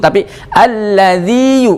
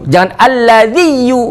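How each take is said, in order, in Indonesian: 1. Vokal akhirnya dibaca panjang dan tegas. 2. Vokal akhirnya pendek dan menyatu. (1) "Jadi dikuatkan panjangnya, maksudnya dimadkan, jangan sampai dibaca idgham"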